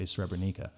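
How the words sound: It is said the American way.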